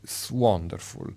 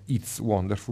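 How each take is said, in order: First: The opening is elided to just an s-sound. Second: The opening "it's" is pronounced in full. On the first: The speaker calls it right. "ma It's Wonderful" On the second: The speaker calls it wrong. "non It's Wonderful"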